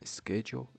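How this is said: The word is said in an American accent. "in U S A"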